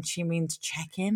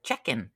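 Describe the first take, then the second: First: Said in the usual way. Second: "Check-in" run together like "chicken", lightly Kiwi. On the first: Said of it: "It was like, No, John". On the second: Retold or imitated. Clerk at airport desk, "Check-in" in Kiwi vowels, like chicken. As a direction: lower "Check-in" with New Zealand vowels, sounding like chicken. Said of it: "because the Kiwi accent, she said".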